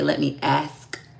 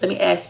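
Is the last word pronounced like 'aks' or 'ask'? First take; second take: ask; aks. First: The word ends with the sounds 'sk'. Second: The word ends with the sounds 'ks'. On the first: This is the proper way the presenter talks. "He say ask with a K" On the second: This is the speaker's own everyday way of talking. "He don't say ask"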